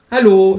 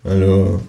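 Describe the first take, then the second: First: Much higher, louder kangaroo hello; a bright squeaky kangaroo greeting. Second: Said in the usual way. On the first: Acted. Kangaroo greets narrator at door. (hohe, laute Känguru-Stimme)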